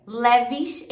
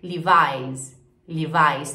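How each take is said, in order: First: "Levi's" as "LÉ-vish"; Portuguese-style "Levi's"; Brazilian pronunciation. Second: "Levi's" as "LEE-vais"; English pronunciation. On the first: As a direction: open E in "Levi's", rising. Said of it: "pronúncia super diferente". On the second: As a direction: lower "Levi's" with EYE diphthong. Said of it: "em inglês". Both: Shown as a demonstration.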